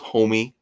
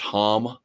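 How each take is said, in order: First: The surname is said as two syllables. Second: The surname is said as one syllable. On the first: The speaker calls it right. "but I guess it's Homey" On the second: The speaker calls it wrong. "where I always said it was [name]"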